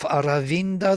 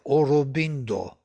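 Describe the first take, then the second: First: It is said with standard Sanskrit a vowels. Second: It is said with Bengali o vowels and b.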